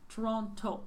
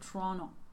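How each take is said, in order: First: The second T is clearly pronounced. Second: The second T is dropped. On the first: This is the form Canadians avoid. "instead of saying Toronto" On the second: This is how Canadian speakers say it. "they would say Toronto"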